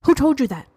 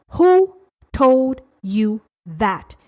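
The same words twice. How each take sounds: First: Said in the usual way. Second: Each word drawn out on its own; very slow, spaced-out questioning; slow, emphatic challenge. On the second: Real, not acted. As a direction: demand it slowly, word by word. Challenges listener, repeats question slower.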